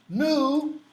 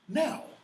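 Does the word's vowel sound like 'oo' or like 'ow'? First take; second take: oo; ow. First: The vowel is a long 'oo' sound. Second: The vowel glides as an 'ow' sound. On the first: This is the old form of the word. "Nu Schulen Herian" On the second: This is the modern form of the word. "modern English"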